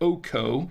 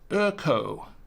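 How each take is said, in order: First: The first vowel is a plain 'oh' sound. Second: The first vowel is a rounded 'er' sound. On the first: The speaker calls it wrong. "it's not going to be Oko" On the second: The speaker calls it right. "It's actually pronounced, uh, as I understand it"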